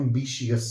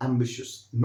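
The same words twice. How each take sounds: First: Ambitious stretched to "am-bi-shi-us"; wrong ambitious. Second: Ambitious as "AM-bi-shus"; ambitious ending in a short "shus"; correct ambitious. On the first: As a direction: show the mistake on ambitious with "shi-us". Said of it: "not ambitious". (गलत ambitious, "एम्बिशियस") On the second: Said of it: "has to be pronounced like". (सही ambitious, "एम्बिशस") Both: Shown as a demonstration.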